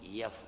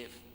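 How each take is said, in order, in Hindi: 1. यह अक्षर y की ध्वनि से शुरू होता है। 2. यह अक्षर सीधे स्वर से शुरू होता है। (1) "तो हम यफ बोलते" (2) "जब बोलते थे A B C D E एफ"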